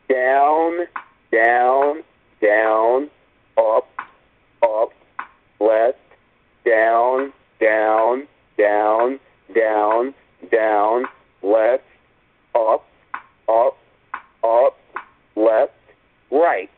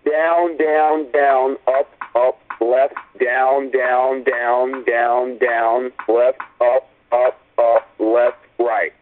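First: The sequence is said at a slow pace. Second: The sequence is said at a fast pace.

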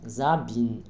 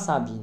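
First: The name begins with a buzzing Z sound. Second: The name begins with a hissing S sound. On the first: The speaker calls it right. "S-A-D-M-N-S devant une voix, c'est la Z" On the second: The speaker calls it wrong. "on ne dit pas Sabine"

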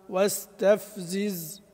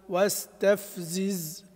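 No difference in how they are said.

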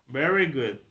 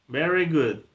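Both takes have the same delivery.

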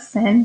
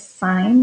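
First: The vowel sounds like the one in 'win'. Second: The vowel sounds like the one in 'line'. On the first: The speaker calls it wrong. "not sin. Don't say sin" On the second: The speaker calls it right. "It is sine"

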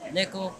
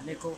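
First: It is said much louder. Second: It is said at a normal, quieter volume.

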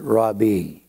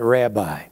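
First: The word is said the older traditional way. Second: The word is said the common modern way. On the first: This is the original form that almost no one uses. "the correct pronunciation is rabbi" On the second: This is how most people say it today. "We call it rabbi"

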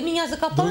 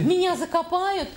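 First: It is said in a calm, flat tone. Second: It is said in a horrified, frightened tone. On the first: The speaker calls it wrong. "Он в ужасе говорит" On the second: The speaker calls it right. "Другой интонацией"

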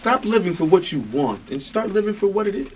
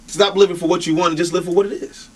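First: It is said slowly and deliberately. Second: It is said at a normal pace.

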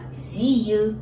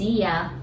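First: The last word is said fully as 'you'. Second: The last word is reduced to 'ya'. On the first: "今学んだSee you" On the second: "You がやに変わって、これは結構、ね、砕けた感じの言い方です"

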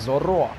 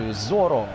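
First: The stress is on the last syllable. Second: The stress is on the first syllable. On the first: The speaker calls it right. "а то йому каже я Зоро" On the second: The speaker calls it wrong. "Тед Лассо говорить Зоро"

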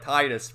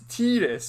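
First: The first vowel sounds like 'eye', as in tide. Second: The first vowel sounds like 'ee', as in tee. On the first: The speaker calls it wrong. "I always called him Tidus, like tide" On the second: The speaker calls it right. "but it's Tidus, which put two E's there"

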